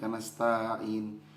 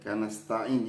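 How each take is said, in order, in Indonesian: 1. Vokal 'ta' dibaca sedikit memanjang. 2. Vokal 'ta' dibaca pendek. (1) "jangan kanastain" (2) "taknya pendek"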